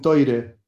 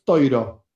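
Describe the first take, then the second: First: It has an oi vowel and ends in e. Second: It has an oi vowel and ends in o. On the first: This is another group's pronunciation. "Hay otros que dicen toire"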